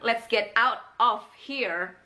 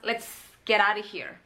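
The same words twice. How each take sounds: First: The word 'of' is clearly pronounced. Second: The word 'of' is nearly silent.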